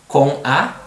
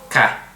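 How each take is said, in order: First: The two words are said as separate syllables. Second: The two words merge into one short syllable.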